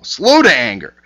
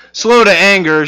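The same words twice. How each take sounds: First: Scripture reading. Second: Mock exasperation. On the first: Shown as a demonstration. Reads scripture aloud. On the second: Mock Jonah complaining to God.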